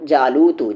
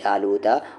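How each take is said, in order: First: The word ends with a u vowel. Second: The word ends with an a vowel. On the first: The named person did the killing. The speaker calls it wrong. "जालूता की जगह जालूतू पढ़ते हैं" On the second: The named person was killed. The speaker calls it right. "Quran की ये आयत सही है"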